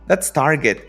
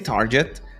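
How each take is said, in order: First: The g sounds hard, as in get. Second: The g sounds soft, unlike in get. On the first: The speaker calls it right. "Siempre suena get" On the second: The speaker calls it wrong. "don't say target"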